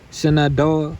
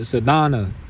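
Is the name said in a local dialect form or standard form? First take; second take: standard; dialect. First: It is said in a standard pronunciation. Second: It is said in a local dialect pronunciation.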